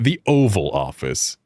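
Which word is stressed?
Oval. The stress falls on the word Oval. The speaker calls it wrong. "It's not the Oval Office"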